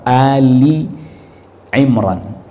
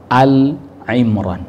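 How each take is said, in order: First: The first word has two syllables, ending in i. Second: The first word has one syllable, without final i. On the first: The speaker calls it right. "Jadi yang benar surat Ali Imran. Cara bacanya begitu" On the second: The speaker calls it wrong. "bukan Al Imran, bukan"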